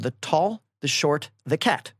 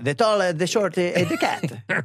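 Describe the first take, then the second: First: It is said in the speaker's ordinary accent. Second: It is said in an imitated Italian accent.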